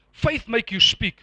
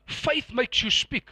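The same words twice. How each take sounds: First: "Faith makes you speak" said slowly and firmly; emphasized statement. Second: Said in the usual way. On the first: Shown as a demonstration. Preacher emphasizing what was said, slow weighty "Faith makes you speak". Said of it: "I just want to emphasize what you said". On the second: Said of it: "emphasize what you said".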